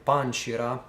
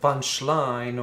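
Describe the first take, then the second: First: It is said with a Japanese pronunciation. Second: It is said with an English pronunciation.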